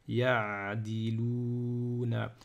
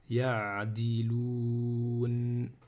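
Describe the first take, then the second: First: The word ends with a final vowel sound. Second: The word ends on a consonant, no final vowel.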